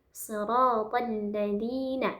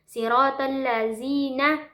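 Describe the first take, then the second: First: The consonant in 'ladhina' sounds like th. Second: The consonant in 'ladhina' sounds like z. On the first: The speaker calls it right. "dia itu zal bukan zai ya" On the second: The speaker calls it wrong. "zalnya itu diubah menjadi zai"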